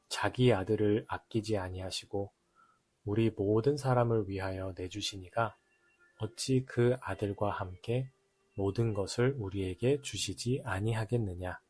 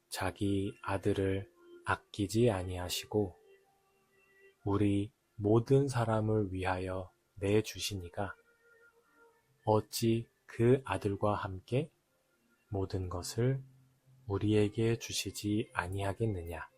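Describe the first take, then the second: First: The verse is read at a normal pace. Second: The verse is read more slowly.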